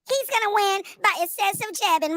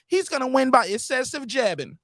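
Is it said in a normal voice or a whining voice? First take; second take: whining; normal. First: It is said in a whining put-on voice. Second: It is said in his normal voice.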